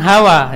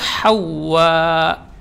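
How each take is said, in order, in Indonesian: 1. h Indonesia biasa, w tunggal, tanpa hentian di akhir. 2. h dari tenggorokan, w ganda, ada hentian glotal di akhir. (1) "Jadi bukan Hawa, ini salah" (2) "Ha yang keluar di tengah tenggorokan, kemudian tasydid... ada hamzah"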